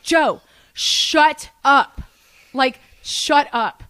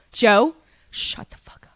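First: Slow, exasperated yell, easing on the repeat; acted-out scream. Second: Slow, whispered retold warning; acted-out hissed whisper; hushed warning. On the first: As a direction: stretch each word, firmly silencing a friend. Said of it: "sorry if I just screamed". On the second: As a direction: whisper it urgently to a friend in trouble. Privately silencing Joe before the cops.

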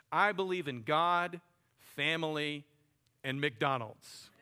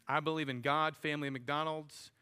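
First: Louder, slowed quote that lingers on McDonald's; slow emphatic quote. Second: Said in the usual way. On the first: Retold or imitated. Pastor quoting Ray Kroc to the congregation, slow and emphatic. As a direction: spell out each item deliberately, slowing at the end. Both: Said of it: "Ray Kroc famously said this".

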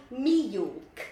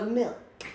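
First: "me York" drawn out for milk; imitated Cockney pronunciation. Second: Said in the usual way. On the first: Tess showing her friend's accent, "me York" exaggerated slowly. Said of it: "you say me York for milk". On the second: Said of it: "for milk".

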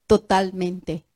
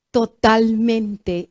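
First: Said in the usual way. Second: "totalmente" drawn out slowly, falling; slow emphatic repeat. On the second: Shown as a demonstration. Preacher repeats to stress Elisha's lesson, slowly drawn out. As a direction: stretch "totalmente" out for weight.

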